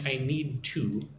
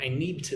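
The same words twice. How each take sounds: First: The word 'to' is pronounced fully and separately. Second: The word 'to' is reduced and blended in. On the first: The speaker calls it wrong. "I'm not saying I need to" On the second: The speaker calls it right. "It's more like I need to see"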